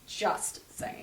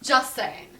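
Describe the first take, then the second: First: A sly whispered echo; whispered aside. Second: Said in the usual way. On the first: Shown as a demonstration. The host mutters it again to her cohost, in a whisper. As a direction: repeat "Just saying." softer, in a breathy whisper.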